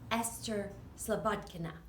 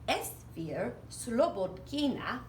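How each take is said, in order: First: The name is said with American English sounds. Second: The name is said with Russian-style sounds.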